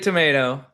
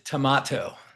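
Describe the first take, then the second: First: The word is said in a non-Australian way. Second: The word is said in the Australian way. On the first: "here we say tomato" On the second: "In Australia, they pronounce the red fruit tomato"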